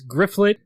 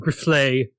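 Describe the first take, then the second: First: The name ends with a hard T sound. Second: The name ends in a vowel, no T.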